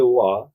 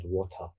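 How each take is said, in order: First: "wa" for water, the middle t and ending dropped; Cockney pronunciation. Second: "water" in full, with the t sounded; standard pronunciation. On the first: Recalling East London speech, Cockney "wa". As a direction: say "wa" the Cockney way, cut short. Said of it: "their accent is Cockney". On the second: Quoting a supervisor correcting him, standard "water". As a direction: say "water" in careful standard English. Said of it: "With standard one". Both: Shown as a demonstration.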